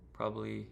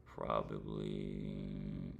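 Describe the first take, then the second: First: Said in the usual way. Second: Probably stretched very slowly, pitch dropping low; slow drawn-out probably. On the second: Real, not acted. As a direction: drag out the word probably, unsure. Hesitating before naming a day.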